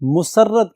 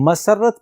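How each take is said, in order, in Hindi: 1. पहले अक्षर में स्वर 'u' है। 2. पहले अक्षर में स्वर 'a' है। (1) "गलतुल अवाम है, मुसर्रत कहते हैं, वो गलत है" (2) "मसरत पढ़ेंगे मीम पर जबर के साथ"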